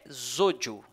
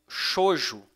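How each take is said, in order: First: The name begins with a z sound. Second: The name begins with an sh sound. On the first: The speaker calls it right. "o nome, né, correto é Zodio. Esse X aqui tem o, o som de Z" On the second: The speaker calls it wrong. "algumas pessoas pronunciam Shoujo em português"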